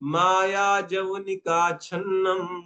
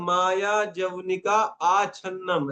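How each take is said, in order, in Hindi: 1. छन्नम से पहले का स्वर शब्द में ही खा लिया जाता है। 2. छन्नम से पहले का स्वर अलग से बोला जाता है। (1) "आ को खा जाओ इसमें भी" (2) "ऐसे नहीं पढ़ना है"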